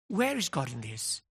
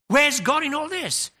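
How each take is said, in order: First: It sounds humble and puzzled. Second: It sounds indignant and demanding.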